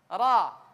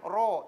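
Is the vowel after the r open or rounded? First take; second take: open; rounded. First: The vowel is open, with lips spread in a smile. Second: The vowel is rounded, with lips pushed forward. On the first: The speaker calls it right. "Senyum saja, biasa" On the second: The speaker calls it wrong. "biasanya mulutnya dimonyongkan. Ro, ini salah"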